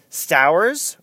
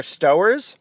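First: "Stowers" with first vowel as in "cow"; "Stowers" with an OW sound, rising as if asking; alternative pronunciation. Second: "Stowers" with first vowel as in "go"; "Stowers" with an OH sound, rising as if asking; alternative pronunciation. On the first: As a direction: say "Stowers" like STOW-erz rhyming with "flowers". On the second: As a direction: say "Stowers" like STOH-erz, as in "store" with a long O. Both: Shown as a demonstration. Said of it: "not sure how you pronounce his name".

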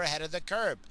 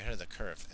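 First: "curb" said with a hard b ending, kʰə˞b; the slip "ahead of the curb", ending on a clear b; wrong word slip. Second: "curve" said with a v ending, kʰə˞v, quick and softer; fixing it to "ahead of the curve", ending on a v; corrected word. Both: Real, not acted. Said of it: "You're a curb? No, you're ahead of the curve".

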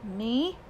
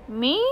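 First: Said in the usual way. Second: A louder, startled second Me?; exclaimed. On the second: A narrator's reading. Uncle exclaiming Me? at the boy's question, louder. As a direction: repeat Me? as an indignant exclamation. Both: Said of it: "he exclaimed".

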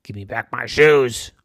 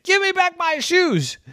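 First: Mean farmer. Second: High, loud demand; shouting farmer. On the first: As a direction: hold it level and mean. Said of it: "a really mean look and said". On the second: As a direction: yell it after the runaway pig. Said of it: "And Farmer said". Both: Acted.

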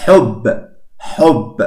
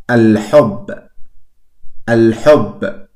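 First: Said in the usual way. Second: Al-hub with the L sounded before the h; pronounced lam. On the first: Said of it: "que es con ja". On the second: Shown as a demonstration. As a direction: say "al-hub", keeping the L audible. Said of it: "las letras lunares sí se pronuncia". ("al-hub" pronunciando la ele del artículo)

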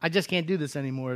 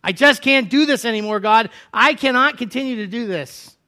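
First: Quiet despair. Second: Elijah despairing. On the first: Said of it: "Elijah cries out". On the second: Elijah giving up before God, high anguished cry. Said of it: "is what I'm hearing". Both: Acted.

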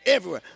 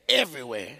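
First: Everywhere said louder and higher, falling hard; stress on everywhere. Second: Said in the usual way. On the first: Real, not acted. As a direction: hammer the word everywhere home. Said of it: "I mean". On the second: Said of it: "I mean, everywhere".

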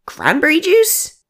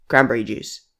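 First: Much higher, slow and rising on juice; stunned question, voice climbing to a squeak; incredulous echo. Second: Said in the usual way. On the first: Acted. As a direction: repeat it back in disbelief. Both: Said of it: "Aaron raised his eyebrow".

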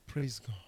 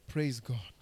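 No difference in how they are said.

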